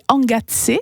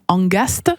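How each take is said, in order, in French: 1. Le son T vient avant le S. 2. Le son S vient avant le T. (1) "le vrai terme c'est angazze, donc le T est vraiment bien avant le S" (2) "Il y en a qui disent angast, mais non"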